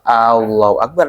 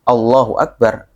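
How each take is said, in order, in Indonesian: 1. Vokal pertama dibaca panjang, ditarik. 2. Vokal pertama dibaca pendek, satu ketukan. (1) "Kalau dua ... kalau Allahu Akbar artinya apakah Allah Maha Besar?" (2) "memang harus Allahu Akbar. ... alif pengucapan Allahu Akbar itu harus satu"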